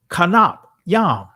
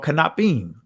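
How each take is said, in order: First: The word is said in an ancient Hebrew form. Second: The word is said in its common form. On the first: "I'm doing it ancient again" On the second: "However you want to pronounce it"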